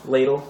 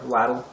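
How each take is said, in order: First: Said in the usual way. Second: LADLE said the way some people say it, rhyming with paddle; alternative pronunciation. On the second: Shown as a demonstration. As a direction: say LADLE with a short A, as in "lad". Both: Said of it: "as some people call it".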